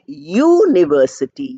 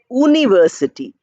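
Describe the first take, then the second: First: The word begins with a y sound. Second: The word begins with a plain oo vowel. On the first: The speaker calls it right. "We are saying university" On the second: The speaker calls it wrong. "we are not saying university"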